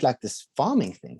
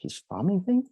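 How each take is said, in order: First: Said in the usual way. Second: Farming thing? rising sharply high in disbelief; incredulous echo. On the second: Retold or imitated. Echoing his buddy's pitch with a high, baffled question. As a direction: throw the words back as a baffled question.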